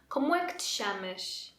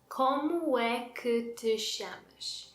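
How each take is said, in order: First: Only chamas is stressed; other syllables are reduced. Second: Every syllable is stressed evenly.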